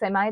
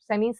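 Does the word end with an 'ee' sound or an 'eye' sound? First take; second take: eye; ee. First: The word ends with an 'eye' vowel. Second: The word ends with an 'ee' vowel. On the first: "सेमी सेमाई दोनों दुरुस्त होते हैं pronunciation में" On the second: "सेमी सेमाई दोनों दुरुस्त होते हैं प्रोनाउंसिएशन में"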